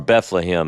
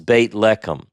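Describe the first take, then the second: First: The name is said the English way, Bethlehem. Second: The name is said the Hebrew way, Beit Lechem.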